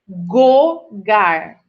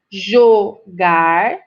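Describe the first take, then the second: First: The word starts with a hard g sound. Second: The word starts with a soft zh sound. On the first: The speaker calls it wrong. "se eu trocar pelo G" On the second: The speaker calls it right. "É muito importante eu pronunciar jogar"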